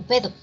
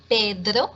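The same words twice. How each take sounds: First: "Pedro" with the D and R mushed together, clipped to "Ped"; garbled "Pedro"; slurred Pedro. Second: "Pedro" with a clear D and tapped R; crisp "Pedro"; careful Pedro. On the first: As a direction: swallow the "dr" in "Pedro". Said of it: "se escucha como". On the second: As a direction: articulate "Pedro" cleanly. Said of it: "si no gesticulo bien". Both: Shown as a demonstration.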